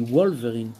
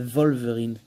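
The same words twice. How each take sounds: First: The word begins with a w sound. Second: The word begins with a v sound. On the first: This is how Belgians pronounce it. The speaker calls it right. "Moi, je dis Wolverine. Mais bon, je suis belge" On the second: This is how the film pronounced it. The speaker calls it wrong. "pendant tout le film, il disait Wolverine"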